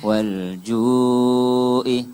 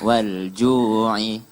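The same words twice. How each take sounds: First: A glottal stop follows a long 'ju' vowel. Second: A throaty ain sound follows the 'ju' vowel. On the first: The speaker calls it wrong. "Kalau hamzah, junya panjang" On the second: The speaker calls it right. "Tapi karena ain"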